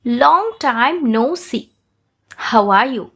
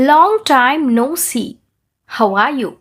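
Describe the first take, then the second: First: Very slow, drawn-out words; slow shadowing model. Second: Very slow, each word drawn out; teacher models it slowly for repeating; slow shadowing model. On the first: Teacher repeats it slowly for shadowing. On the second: Teacher says it slowly for students to shadow. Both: Shown as a demonstration. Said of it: "నేను ఎలాగైతే చెప్తానో మీరు అలా అని చెప్పాలి".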